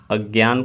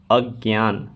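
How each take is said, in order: First: Said in the usual way. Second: अज्ञान said as agyaan with a g-y sound; अज्ञान pronounced agyaan; spoken form. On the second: Shown as a demonstration. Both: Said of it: "लिखित रूप और उच्चारण क्या है".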